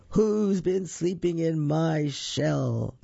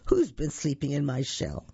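First: Slow, drawn-out big crocodile; great big voice. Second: Lightly voiced middle-sized crocodile; not-so-big voice. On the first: Big crocodile asks who slept in his shell, great big voice. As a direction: stretch it out like a huge creature. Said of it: "in a great big voice". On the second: Middle crocodile asks about his shell, lightly played medium voice. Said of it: "not quite so big a voice". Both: A narrator's reading.

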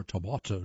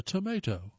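First: "tomato" said as tuh-MAH-toe; "tomato" with MAH instead of MAY; alternative regional pronunciation. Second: "tomato" said as tuh-MAY-toe; "tomato" with MAY in the middle; American pronunciation. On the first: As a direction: say "tomato" with an AH in the middle. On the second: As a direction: say "tomato" with a long A, as in "day". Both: Shown as a demonstration. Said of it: "depending on where you're from".

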